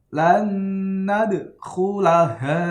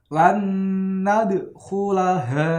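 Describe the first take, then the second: The two takes are said the same way.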